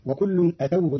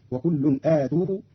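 First: Said in the usual way. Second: "آتوه" said aatuuhu; long alif, damma on ta. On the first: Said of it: "قرأ قالون كلمة أتوه". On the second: Shown as a demonstration. Teacher shows Qalun's reading, "آتوه" with long aa and tuu. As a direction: stretch the first vowel of "آتوه", then tuu. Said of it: "بضم التاء مع ألف قبلها".

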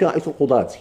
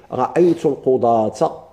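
First: "القضاة" ending in -ti; quick counterexample, "القضاة" closed on -ti; wrong -i ending. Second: "القضاة" ending in a clear -ta; measured model phrase, "القضاة" closed on -ta; accusative ending -a. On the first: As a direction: say "القضاة" as al-qudaati. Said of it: "ما تقولش". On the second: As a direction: say "القضاة" as al-qudaata, slowly. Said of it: "ما تقولش رأيت القضاة". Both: Shown as a demonstration.

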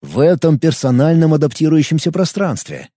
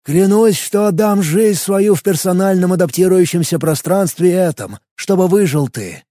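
First: «этом» set apart with a falling tune; stress on этом. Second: Solemn, high ceremonial oath; booming biblical narration. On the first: Shown as a demonstration. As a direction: hit «этом» in the repeated phrase. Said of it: "Интересное, надо сказать, дополнение". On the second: Acted. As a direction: swear it like a sacred vow. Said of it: "более торжественным голосом".

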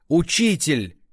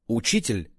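First: Hoarse strained call, louder and higher; хриплый надсадный крик. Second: Said in the usual way. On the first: A narrator's reading. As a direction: rasp it out between coughs. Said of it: "надсадно кашляя прохрипел он". (надсадный хрип с кашлем) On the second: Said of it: "narrated name, plain".

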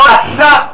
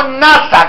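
First: "nasá" stressed on the last syllable, na-SÁ, the final A rising; Hebrew nasá, final stress. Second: "nasa" with stress on the first syllable, NA-sa, like the English agency name; wrong stress, like the space agency. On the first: Preacher teaches the congregation the Hebrew word: "nasá" stressed na-SÁ. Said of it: "nasá con tilde en la A". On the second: Preacher shows the congregation the wrong word: "nasa" stressed NA-sa. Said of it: "No nasa como la agencia espacial". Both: Shown as a demonstration.

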